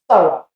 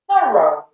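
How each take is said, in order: First: The unstressed syllable is weakened to a schwa. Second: Every syllable is said with a full vowel. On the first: The speaker calls it right. "We say thorough" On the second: The speaker calls it wrong. "If we pronounce every single syllable"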